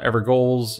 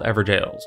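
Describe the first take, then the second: First: The ending is pronounced like goal. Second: The ending is pronounced like jail. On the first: The speaker calls it wrong. "not Evergoals or Evergowls or any other odd pronunciation" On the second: The speaker calls it right. "these are called Everjails"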